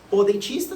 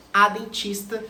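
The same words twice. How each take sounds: First: "o" stressed before "dentista" for the masculine. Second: "a" stressed before "dentista" for the feminine. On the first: Teacher showing masculine use to students, stressing "o". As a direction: lean on "o", keep "dentista" open for more. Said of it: "Você fala o dentista". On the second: Teacher showing feminine use to students, stressing "a". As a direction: lean on "a" in "a dentista". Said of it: "se for do sexo". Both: Shown as a demonstration.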